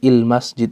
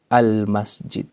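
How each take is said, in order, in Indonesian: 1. Frasa itu diawali dengan vokal i. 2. Frasa itu diawali dengan vokal a. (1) "bukan il masjid" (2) "hamzatul wasl dibaca dengan harokat fathah. Contohnya al al masjid"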